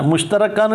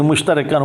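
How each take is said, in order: First: मुश्तरकान read as mush-ta-ra-kaan, short a before the r-k; wrong reading. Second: मुश्तरकान read as mush-ta-ri-kaan, with an i after the r; corrected reading. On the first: (मुश्तरकान को मुश-त-र-कान पढ़ना, बीच में "र" पर ज़बर) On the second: (मुश्तरकान को मुश-त-रि-कान पढ़ना, "र" के नीचे ज़ेर) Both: Shown as a demonstration. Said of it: "मुश्तरकान नहीं पढ़ेंगे".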